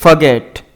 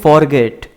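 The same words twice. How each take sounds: First: "forget" with a weak, barely heard first syllable and the stress on "get"; the teacher's correct model "forget"; correct pronunciation. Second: "forget" said wrongly, with a full "for" and the weight on the first part; the student's mistaken "forget"; common mispronunciation. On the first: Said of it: "इसकी सही pronunciation है forget". (सही उच्चारण वाला "forget", ज़ोर "get" पर) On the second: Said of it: "अक्सर इसको स्टूडेंट मिसप्रोनाउंस करते हैं". (गलत उच्चारण वाला "forget") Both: Shown as a demonstration.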